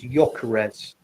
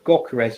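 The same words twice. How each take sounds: First: The name starts without any G sound. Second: The name starts with a hard G sound. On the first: The speaker calls it right. "it's a silent G" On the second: The speaker calls it wrong. "It's not Gyökeres"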